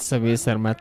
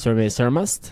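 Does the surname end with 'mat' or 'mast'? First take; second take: mat; mast. First: The surname ends in 'mat' without an s. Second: The surname ends in 'mast' with an s. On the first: The speaker calls it wrong. "You said Sami Sarmat" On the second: The speaker calls it right. "Why exactly he is Sami Sarmast?"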